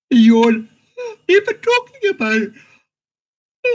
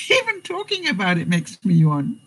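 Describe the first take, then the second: First: Much higher, louder words through a real yawn; yawning while talking. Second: Said in the usual way. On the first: Real, not acted. Explaining contagious yawning, yawns through the words. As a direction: let the yawn take over the words.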